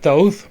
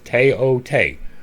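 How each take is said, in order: First: It begins with a TH sound, English style. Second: It begins with a plain T and a long O. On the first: This is the English way of saying it. "that is an Anglicization. That is English" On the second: This is how it is said in Egypt today. "The T H is T to them. The O is long"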